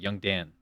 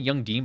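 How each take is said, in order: First: The name has a short 'a' vowel, like 'Dan'. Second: The name has an 'ee' vowel, like 'Dean'. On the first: The speaker calls it right. "It's pronounced Dan" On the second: The speaker calls it wrong. "I know it's not Young Dean"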